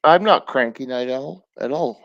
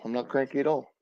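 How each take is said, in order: First: A sharp, louder protest; loud denial. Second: Said in the usual way. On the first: Real, not acted. Streamer answering a chatter called Night Owl, a loud insistent denial. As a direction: insist loudly that you're not cranky. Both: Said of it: "This is how I talk".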